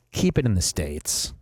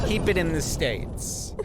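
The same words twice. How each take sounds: First: Said in the usual way. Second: Slow, deliberate slogan with weight on every word; slogan delivery. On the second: Shown as a demonstration. Host pitching his movie slogan, slow and emphatic. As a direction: announce it like a catchphrase. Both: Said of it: "That's my slogan for movie".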